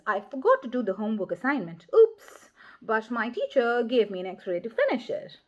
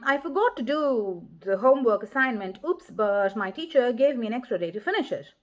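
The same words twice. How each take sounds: First: The interjection is clearly set apart by the voice. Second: The interjection runs in without being set apart.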